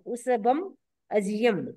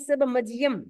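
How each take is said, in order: First: The two words are said separately, not linked. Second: The final m runs straight into the next word. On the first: This shows the separate words and their meaning. "समझने के लिए आपको तोड़ना पड़ेगा" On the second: This is how it is recited. "उच्चारण तो आपको करना है उस सब मजियम"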